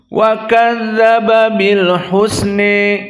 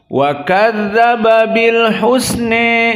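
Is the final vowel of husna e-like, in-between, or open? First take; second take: e-like; e-like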